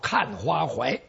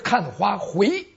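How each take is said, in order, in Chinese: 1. 最后一个音节读 huai。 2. 最后一个音节读 hui。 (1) "据说为押韵，此处可以读成怀" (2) "是看花回"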